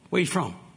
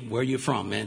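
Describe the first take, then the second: First: It is asked in a friendly, casual way. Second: It is asked in a hostile, menacing way.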